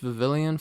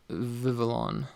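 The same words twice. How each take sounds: First: An extra 'ee' sound comes before the last syllable. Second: No extra 'ee' sound comes before the last syllable. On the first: The speaker calls it wrong. "I always think it's Vivillon for some reason" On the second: The speaker calls it right. "But it's Vivillon"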